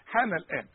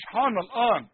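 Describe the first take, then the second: First: الآن linked to حان, no stop; correct reading. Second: الآن with a hard stop at its start; wrong reading. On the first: Teacher gives the right form. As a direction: run حان الآن together. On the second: Teacher shows the error, louder. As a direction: stop sharply before الآن. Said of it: "مش". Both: Shown as a demonstration.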